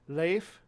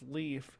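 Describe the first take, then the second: First: The vowel sounds like the ay in bay. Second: The vowel sounds like the ee in see. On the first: The speaker calls it right. "It's E like bay" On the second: The speaker calls it wrong. "which isn't pronounced leaf"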